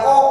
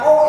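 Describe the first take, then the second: First: "O" said through a mouth shaped for A. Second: Said in the usual way. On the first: Shown as a demonstration. Teacher showing the class a faulty "O", mouth shaped as A. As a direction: say "O" with the mouth opened as for "A". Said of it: "tapi mulutnya A". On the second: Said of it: "ya O, bukan O".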